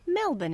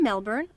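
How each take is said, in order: First: The R sound is softened, barely pronounced. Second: The R sound is clearly pronounced.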